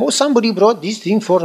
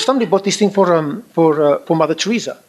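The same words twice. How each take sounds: First: Put-on high-pitched, half-hearted Spanish accent; attempted Spanish accent. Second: Said in the usual way. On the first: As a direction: have a poor go at a Spanish accent. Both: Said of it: "I can't do Spanish accent".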